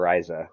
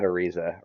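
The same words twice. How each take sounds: First: "Ariza" with an EYE middle, uh-RYE-zuh; alternative pronunciation. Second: "Ariza" with an EE middle, uh-REE-zuh; first pronunciation variant. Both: Shown as a demonstration. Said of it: "or Ariza".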